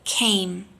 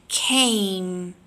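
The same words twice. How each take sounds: First: Said in the usual way. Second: "Came" with the A vowel held long; long drilled vowel. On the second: Shown as a demonstration. Teacher drilling a long A before the m. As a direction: stretch the A in "Came". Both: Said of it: "Repeat after me".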